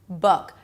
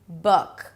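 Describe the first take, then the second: No difference in how they are said.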